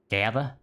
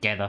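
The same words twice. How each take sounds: First: The word has the speaker's usual accent. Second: The word has an Australian accent.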